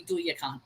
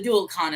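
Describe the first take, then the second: First: Duyakan as DOO-ya-kan, lower and softer; alternative pronunciation. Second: Dualcan as DOOL-kan, L sounded; chosen pronunciation. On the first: Adding the other possible name, Duyakan with a Y, softer. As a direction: swap the L for a Y in Duyakan. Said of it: "or it could be Duyakan". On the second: Settling on one name, Dualcan with the L. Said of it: "gonna pronounce it that way". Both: Shown as a demonstration.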